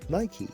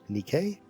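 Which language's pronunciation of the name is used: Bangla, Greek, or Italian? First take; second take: Bangla; Italian. First: The name is pronounced the Bangla way. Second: The name is pronounced the Italian way. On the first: "in Bangla they say Nike as" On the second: "in Italian they pronounce it as"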